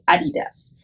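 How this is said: The name is said with a German pronunciation. "in Germany we say Adidas"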